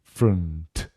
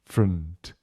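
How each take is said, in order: Both takes have the same delivery.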